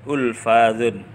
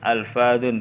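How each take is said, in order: First: The word begins with a 'u' vowel sound. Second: The word begins with an 'a' vowel sound. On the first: The speaker calls it wrong. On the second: The speaker calls it right.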